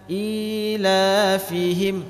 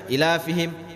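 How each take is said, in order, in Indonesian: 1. Vokal pertama diucapkan panjang. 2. Vokal pertama diucapkan pendek. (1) "tapi ila fihim" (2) "jangan dibaca ila fihim"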